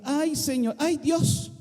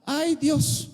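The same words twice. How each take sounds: First: Higher, drawn-out sigh of "ay"; a mock moan to God; whiny complaint. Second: Higher, drawn-out "ay, Dios"; a mock moan to God; whiny complaint. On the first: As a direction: groan "ay, Dios" like a reluctant believer. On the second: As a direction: moan it like a reluctant believer. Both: Shown as a demonstration. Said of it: "Así decimos aquí".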